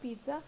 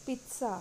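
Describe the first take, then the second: First: Pizza with a buzzed Z, "pee-za"; wrong pronunciation. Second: Pizza with a TS, "peet-sa"; correct pronunciation. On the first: Teacher rejecting a common mistake, pizza as "pee-za". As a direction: say pizza without any T sound. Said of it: "but it is not pizza". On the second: Teacher giving the correct word, pizza as "peet-sa". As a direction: put a crisp T before the S in pizza. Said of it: "it is pizza". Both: Shown as a demonstration.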